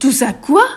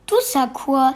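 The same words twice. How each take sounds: First: Loud, high thunder of disbelief. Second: Loud, baffled question; puzzled. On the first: Hagrid thundering Harry's question back in disbelief, loud. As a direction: boom the words back at him. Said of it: "tonna Hagrid". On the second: Harry confused by Hagrid's words, puzzled and louder. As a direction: ask it honestly confused. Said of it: "s'étonna Harry". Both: Acted.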